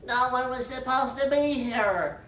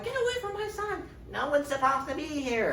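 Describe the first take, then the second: First: High, odd creepy assassin voice; a hunched killer surprised; startled assassin. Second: Very high falsetto mock mother; a mother protecting her son, high mock scream; shrill mother. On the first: Retold or imitated. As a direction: squeak it out caught red-handed. Assassin caught in act. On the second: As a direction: shriek it in a put-on high voice. Catelyn defending her son.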